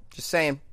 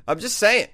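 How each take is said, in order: First: Said in the usual way. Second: High, loud, laughing "I'm just saying". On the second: Real, not acted. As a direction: laugh through "saying" as a teasing repeat.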